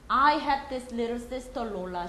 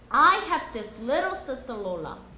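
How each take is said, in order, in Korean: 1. 평평한 리듬에서는 모든 단어에 같은 무게가 실려요. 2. 변화가 있는 리듬에서는 중요한 단어가 두드러져요. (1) "한 번은 리듬과 이 이 세 가지를 고려하지 않고 읽어드릴 거고" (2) "두 번째는 이거를 고려하고 읽어드릴 거예요"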